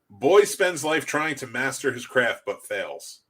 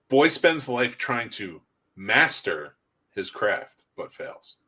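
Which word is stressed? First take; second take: none; master. First: It is said plainly, with no word emphasized. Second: The word master is strongly emphasized.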